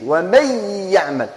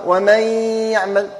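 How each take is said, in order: First: ومن يعمل said lightly, no doubling; reading without doubling. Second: ومن يعمل with a nasal hum on the merged nun; reading with nasal ghunna. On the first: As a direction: read ومن يعمل with no shadda. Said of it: "بدون تشديد". (ومن يعمل بدون تشديد) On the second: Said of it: "كي نجيبوا لها الغنة". (ومن يعمل بالغنة) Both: Shown as a demonstration.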